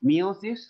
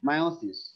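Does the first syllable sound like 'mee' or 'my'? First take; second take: mee; my. First: The first syllable sounds like 'mee'. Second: The first syllable sounds like 'my'. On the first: "একটা হলো মিওসিস" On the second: "আবার হলো মায়োসিস"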